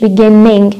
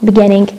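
First: Beginning with a long doubled n, as in Arabic; wrong doubled beginning. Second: Beginning with one short n; correct beginning. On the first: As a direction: stretch the n in beginning like a shadda. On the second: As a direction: say beginning with a single light n. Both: Shown as a demonstration. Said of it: "مش beginning".

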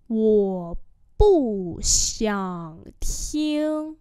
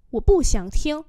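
First: Syllable by syllable; long, drawn-out tones; slow demonstration. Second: Said in the usual way. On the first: Shown as a demonstration. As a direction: model it slowly for learners. Teacher repeats phrase slowly.

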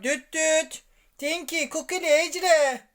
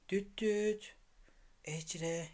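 First: Calling out. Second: Soft low call to wake them. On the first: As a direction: call out to wake them. Calling loudly to wake toys. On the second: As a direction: call the name gently and quietly. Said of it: "Onları sessizce uyandırayım". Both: Real, not acted.

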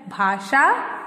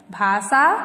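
First: "भाषा" as "bhaa-shaa", with sh; correct pronunciation. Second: "भाषा" as "bhaa-saa", plain s; wrong pronunciation. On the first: Teacher contrasting the correct word, correctly pronounced. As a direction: hush the middle consonant of "भाषा" to sh. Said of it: "शुद्ध शब्द है". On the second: Teacher contrasting the incorrect word, mispronounced. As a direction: swap sh for s in "भाषा". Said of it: "अशुद्ध शब्द है". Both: Shown as a demonstration.

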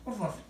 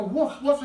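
First: Mild, soft woof woof like a dog; dog bark on cue. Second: Louder, higher woof woof; retold dog bark. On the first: Pretend. Bird tells him to bark, he gives soft woofs. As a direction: answer the bird with a quiet bark. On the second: Showing the audience how he barks when told, loud woofs. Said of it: "I go".

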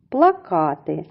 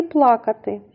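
First: "Плакати" stressed on -ка-; stress on second syllable. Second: "плакати" stressed on пла-; stress on first syllable. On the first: Teacher comparing words that sound alike, stress on second syllable. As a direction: say "Плакати" as pla-KA-ty. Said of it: "наголос в цім слові припадає на другий". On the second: Teacher comparing words that sound alike, stress on first syllable. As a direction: say "плакати" as PLA-katy. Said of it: "Але наголос". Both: Shown as a demonstration.

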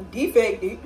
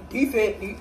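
No difference in how they are said.

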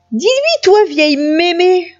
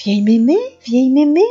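First: High, exasperated demand. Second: Musing repeat with a rising lilt; amused echo. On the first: Chaperon noir demanding grandmother's support, exasperated. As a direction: snap it out pitched way up. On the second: Grandmother echoing the girl's insult, amused lilt. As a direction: try the name out, as if tickled. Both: A narrator's reading.

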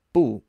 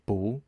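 First: BU said with a sharp falling fourth tone. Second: BU said with a rising second tone. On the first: Teacher shows the original syllable, BU in a falling tone. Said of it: "fourth tone or a falling tone". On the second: Teacher shows the changed syllable, BU in a rising tone. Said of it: "changes over to a second tone". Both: Shown as a demonstration.

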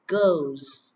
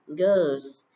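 First: "Goes" with a clear long O; correct O sound. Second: Put-on goes said wrongly as "Girls", with an er vowel; mispronounced goes. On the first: Teacher correcting students, "Goes" with a clear long O. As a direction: model "Goes" with the O glide, falling. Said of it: "Các bạn phải phát âm là âm O này". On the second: Teacher showing students' common mistake, goes mispronounced as "Girls". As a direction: say "Girls" with a central er vowel instead of O. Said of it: "các bạn hay đọc là girls". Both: Shown as a demonstration.

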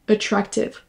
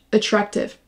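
The two takes are said the same way.

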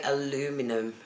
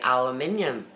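First: Aluminum as a-LOO-mi-num, four syllables; American aluminum. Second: Aluminium as a-lu-MIN-i-um, five syllables; British aluminium. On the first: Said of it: "we don't say aluminum". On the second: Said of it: "we say aluminium". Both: Shown as a demonstration.

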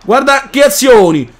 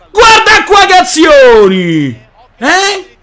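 First: Said in the usual way. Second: Slow loud exultant shout. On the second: Real, not acted. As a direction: belt it in triumph. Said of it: "repeated louder".

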